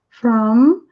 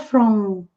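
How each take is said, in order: First: The final m is made with closed lips. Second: The final m is made with open lips. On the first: The speaker calls it right. "o M a gente sempre encosta nos nossos lábios" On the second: The speaker calls it wrong. "não é from"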